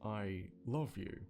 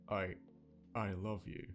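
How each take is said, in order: First: It is said smoothly, without a break. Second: It is said with a stutter on I.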